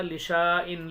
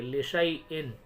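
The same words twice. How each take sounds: First: "लिशाइन" with a long held शा; stretched शा. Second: "लिशैइन" with a short शा running into the इन; don't hold the शा in "लिशैइन"; unstretched शा. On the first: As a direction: drag the शा out in "लिशाइन". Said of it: "पढ़ना क्या चाहिए था". ("लिशाइन" में शा लंबा खींचकर) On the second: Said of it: "ऐसे पढ़ेंगे". ("लिशैइन" में शा छोटा, बिना खींचे) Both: Shown as a demonstration.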